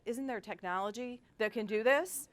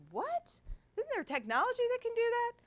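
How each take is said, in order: First: Said in the usual way. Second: Much higher, fast, astonished question; incredulous disbelief. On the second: Retold or imitated. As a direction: ask it as if you can't believe it. Incredulous retold question to staff.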